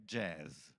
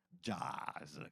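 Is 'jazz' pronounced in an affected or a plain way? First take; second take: plain; affected. First: The word is pronounced in a plain, ordinary way. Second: The word is pronounced in a showy, affected way. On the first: The speaker calls it right. "l'unica dizione corretta è jazz" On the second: The speaker calls it wrong. "non alla [name] jazz, che fa tanto figo dirlo così"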